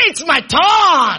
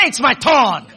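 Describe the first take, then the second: First: Drawn-out rallying cry, TURN held long; emphatic shout. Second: Said in the usual way. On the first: Shown as a demonstration. Preacher rousing a half-hearted congregation, emphatic shout. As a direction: shout it out slowly to rouse them. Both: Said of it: "some of you are not serious".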